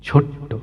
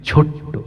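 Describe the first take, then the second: No difference in how they are said.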